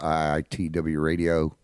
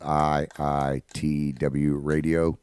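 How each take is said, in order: First: It is said fast. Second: It is said slowly.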